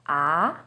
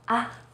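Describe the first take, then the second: First: The pitch starts lower and rises. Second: The vowel is light and very short. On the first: "starts with a little lower pitch and goes up" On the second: "you say it in a more light and short way"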